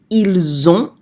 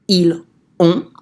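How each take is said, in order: First: The S is sounded and linked to ont. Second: The S is silent with no link to ont. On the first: The speaker calls it right. "an example of a liaison would be" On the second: The speaker calls it wrong. "rather than"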